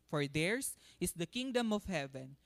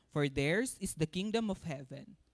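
The two takes are said the same way.

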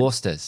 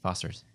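First: It is said in an Australian accent. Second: It is said in a plain American accent.

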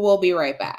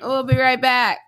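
First: It is said in a relaxed, casual way. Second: It is said in a stiff, forced way. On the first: "I'm with a friend and I'm going to say" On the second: "that seemed kind of forced"

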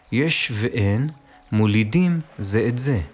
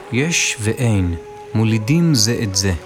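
No difference in how they are said.

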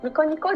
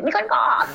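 First: It is said flatly and short. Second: It is said energetically with a stretched end.

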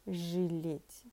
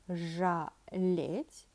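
First: The first vowel sounds like 'i'. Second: The first vowel sounds like 'a'. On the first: The speaker calls it right. "We pronounce it with и" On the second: The speaker calls it wrong. "we are writing this verb with letter A. Exactly, we have to pronounce it жалеть, but definitely that doesn't happen that way"

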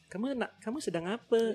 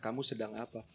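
First: It is said with a Malaysian accent melody. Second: It is said flat, in an Indonesian accent. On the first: "Kan beda gitu" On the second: "Kayak kita ngomong kan dilurus-lurusin aja gitu"

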